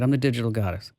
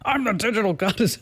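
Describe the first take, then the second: First: It is said hesitantly, without conviction. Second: It is said forcefully, with full conviction. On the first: The speaker does not believe the claim. The speaker calls it wrong. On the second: The speaker fully commits to the claim. The speaker calls it right.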